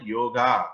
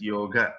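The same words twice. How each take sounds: First: Yoga with the last vowel drawn out, yo-GAA; long final A. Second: Yoga with a short, light final a; correct short ending. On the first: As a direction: say "yoga" ending in a long, open aah. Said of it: "we should, uh, not call it". ("yoga" with a stretched feminine -aa ending) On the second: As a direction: say "yoga" as YOH-guh, the end unstressed. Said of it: "it is yoga". ("yoga" with a long o and brief last vowel) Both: Shown as a demonstration.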